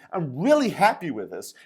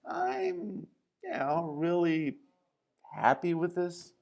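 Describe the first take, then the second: First: It is said smoothly and sincerely, without hesitation. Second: It is said haltingly, with a hesitant pause. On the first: The speaker is truly happy. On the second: There might be more to this than happiness.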